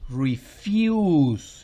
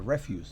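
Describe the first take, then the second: First: The stress is on the second syllable. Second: The stress is on the first syllable. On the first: It is the verb meaning to decline something. "Refuse significa rehusar algo" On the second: It is the noun meaning garbage. "estoy diciendo eso es basura"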